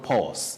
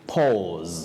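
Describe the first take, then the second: First: The word ends with a voiceless s sound. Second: The word ends with a voiced z sound. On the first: The speaker calls it wrong. "You don't say S" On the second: The speaker calls it right. "taking what we call the voiced sound Z"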